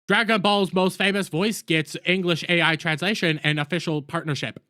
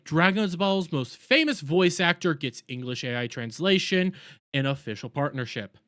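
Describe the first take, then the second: First: It is read flatly with no inflection. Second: It is read lively with varied inflection. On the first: A machine is reading it. The speaker calls it wrong. "A I reading it to you" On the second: A human is reading it. The speaker calls it right. "a human would read that"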